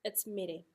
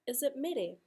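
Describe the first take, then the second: First: Said in the usual way. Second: "Is it mere?" asked with a high, surprised question tune. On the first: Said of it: "that's just in my expression". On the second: Shown as a demonstration. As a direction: sound doubtful that it is "mere". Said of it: "So the intonation of my voice".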